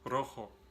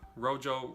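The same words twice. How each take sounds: First: The R is a Spanish-style rolled R. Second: The R is an English-style R. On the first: The speaker calls it right. "the real way that you say that word is rojo. Did you hear that Spanish R?" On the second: The speaker calls it wrong. "rojo is how you say this word"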